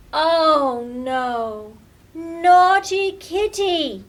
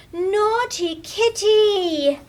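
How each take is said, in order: First: Loud, exasperated cry then slow scold; fed-up child shouting at her pet. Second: High, slow, loud scold; a child's drawn-out telling-off. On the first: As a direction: groan oh no, then slowly scold Naughty Kitty. Lily discovers new mischief. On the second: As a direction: drag out each word in shocked scolding. Lily finds kitty's mess. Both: Acted.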